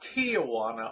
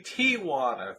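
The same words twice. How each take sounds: First: The word is said with four syllables. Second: The word is said with three syllables. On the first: The speaker calls it wrong. "not Tijuana" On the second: The speaker calls it right. "It's officially Tijuana, three syllables, not four"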